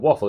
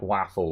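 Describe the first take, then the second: First: It sounds like the ordinary English word waffle. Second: It is said with a different, Dutch-like vowel sound. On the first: The speaker calls it wrong. "It's not waffle like a waffle" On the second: The speaker calls it right. "It was more like waffle or something like that"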